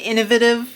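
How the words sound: It is said in a British accent.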